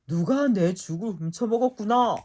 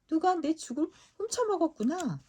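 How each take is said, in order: First: It is shouted in a big, booming voice. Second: It is said in a medium, ordinary voice. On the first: The biggest bear is speaking. "쩌렁쩌렁 울리는 커다란 목소리로 외쳤어요" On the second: The middle-sized bear is speaking. "크지도 작지도 않은 보통 크기의 목소리로 말했어요"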